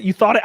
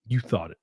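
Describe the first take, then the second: First: High, loud playful "you thought it"; mock accusation. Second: Said in the usual way. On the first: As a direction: jab it at chat. Bickering with chat.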